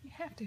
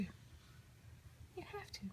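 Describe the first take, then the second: First: Said in the usual way. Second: A very slow, much softer, breathy whispered coax. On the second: Real, not acted. Mother coaxing baby to talk.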